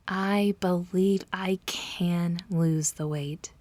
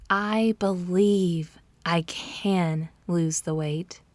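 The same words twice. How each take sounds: The two takes are said the same way.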